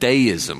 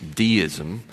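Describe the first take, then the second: First: Deism is pronounced the British English way. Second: Deism is pronounced in a non-British way. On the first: "which is how they say it in British English" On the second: "especially for you, translation"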